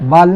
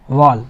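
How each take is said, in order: First: The vowel is an open 'ah' sound. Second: The vowel is a heavier, rounded 'aw' sound. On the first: The speaker calls it wrong. "वाल नहीं बोलना है" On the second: The speaker calls it right. "इसको क्या बोलना है"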